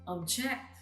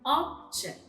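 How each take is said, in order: First: The stress is on the last syllable. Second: The stress is on the first syllable. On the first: It is a verb. "while in the verb, the stress is in the last syllable" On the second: It is a noun. "In the first column with nouns, the first syllables are written in bold letters, meaning the stress is in the first syllable"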